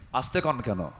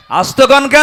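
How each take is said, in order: First: Said in the usual way. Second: Higher, louder shouted question; loud rallying challenge. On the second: Acted. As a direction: shout it back at the crowd.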